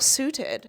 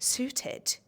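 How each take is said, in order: First: The word is said casually, without careful articulation. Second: The word is said with crisp, careful articulation.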